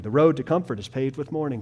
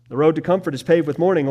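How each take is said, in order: First: Said in the usual way. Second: Louder and fast, driving it home; punchy, fast preacher's emphasis; emphatic restatement. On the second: Shown as a demonstration. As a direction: press the point with force.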